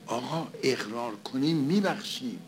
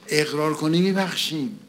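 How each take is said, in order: First: Said in the usual way. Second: Louder, with the stress on میبخشیم; emphatic loud quote. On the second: Retold or imitated. Preacher repeating the words the man couldn't say, emphatic and loud. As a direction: push the line out with force.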